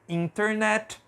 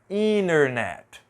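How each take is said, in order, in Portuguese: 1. O T depois do N é pronunciado claramente. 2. O T depois do N é omitido. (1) "Se você pronunciar do jeito que está aqui, vai estar correto" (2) "é muito comum a gente não pronunciar a letra T depois da letra N"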